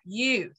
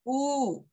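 First: The vowel is said with flat, spread lips. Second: The vowel is said with tightly rounded lips. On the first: The speaker calls it wrong. "when you say U in English, your lips are kind of flat" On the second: The speaker calls it right. "But in Spanish, your lips are rounded"

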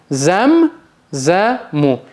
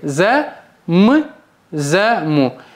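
First: The m is joined into the first syllable. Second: The m is split off as a separate beat. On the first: The speaker calls it right. "она всегда читается с предыдущей сразу" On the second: The speaker calls it wrong. "никогда не читайте"

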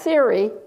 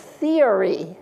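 First: The word is said as two syllables. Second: The word is said as three syllables. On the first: The speaker calls it wrong. "It's not theory" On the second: The speaker calls it right. "It's three, isn't it? It's theory"

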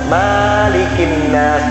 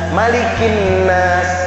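First: The vowel after the m is drawn out long. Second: The vowel after the m is kept short. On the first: The speaker calls it wrong. "Banyak yang baca kayak gitu. Salah itu" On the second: The speaker calls it right. "Pendek mimnya, jangan panjang"

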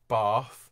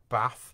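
First: The word is said in an RP accent. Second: The word is said in a Northern accent. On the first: "RP in sort of most of London" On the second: "anywhere that's sort of north of Leicester"

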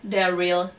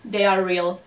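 Both takes have the same delivery.

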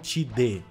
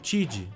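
First: The word ends with an added i vowel. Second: The word ends cleanly on the d sound. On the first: The speaker calls it wrong. "Eu não falo Tid" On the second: The speaker calls it right. "Eu falo Tid"

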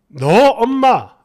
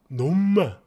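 First: It is said as two separate words. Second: The words blend into one dialect syllable pair. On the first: "너 엄마라고 했는데" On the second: "이게 사투리다 보니까 놈마"

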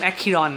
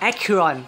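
First: The name is said with a Thai-style pronunciation. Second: The name is said with an English-style pronunciation.

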